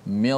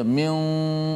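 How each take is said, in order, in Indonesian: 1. Bunyi n menyatu dengan r. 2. Bunyi n terucap dengan jelas. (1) "Terus masukkan nun dalam ra" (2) "Tak boleh kita baca min"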